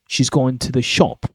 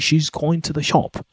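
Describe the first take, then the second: First: The pitch rises on going and falls on shop. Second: The pitch stays flat throughout the sentence. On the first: It sounds natural. The speaker calls it right. "my voice like went up on going and fell on shop" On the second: It sounds robotic. The speaker calls it wrong. "with a flat intonation, it sounds robotic"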